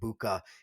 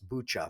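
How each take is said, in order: First: The middle consonant is a hard k sound. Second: The middle consonant is a ch sound. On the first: The speaker calls it wrong. "my great uh, transgression in the last video of continually calling it Buka" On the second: The speaker calls it right. "instead of Bucha"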